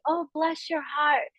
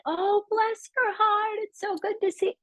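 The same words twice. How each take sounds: First: Lightly Southern, sweet. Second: Put-on over-sweet Southern politeness, hamming up the accent; syrupy Southern accent. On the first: Retold or imitated. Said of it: "They'd say". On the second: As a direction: gush it like a polite Southern lady, all sweetness. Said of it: "that's how they".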